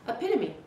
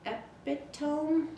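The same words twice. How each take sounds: First: The word is said smoothly and confidently. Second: The word is said slowly and hesitantly. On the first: The reader already knows the word. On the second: The reader is unsure how to pronounce it.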